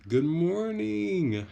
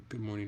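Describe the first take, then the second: First: High, loud, drawn-out singsong hello; excited greeting. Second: Said in the usual way. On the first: Real, not acted. Streamer greeting a viewer by chat, excited and effusive. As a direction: call it out with big, stretched-out delight.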